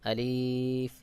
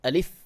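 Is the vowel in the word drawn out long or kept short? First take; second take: long; short. First: The vowel is drawn out long. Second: The vowel is kept short. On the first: The speaker calls it wrong. "এভাবে টান দিয়ে উচ্চারণ করে। টান দিয়ে উচ্চারণ এটা সহিহ শুদ্ধ উচ্চারণ নয়।" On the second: The speaker calls it right. "সহিহ শুদ্ধ উচ্চারণ হলো আলিফ"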